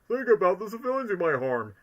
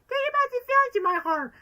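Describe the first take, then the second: First: It is said in Knuckles' voice. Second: It is said in a little girl's voice.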